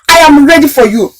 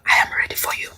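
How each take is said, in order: First: It is shouted loudly. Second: It is said at a normal volume.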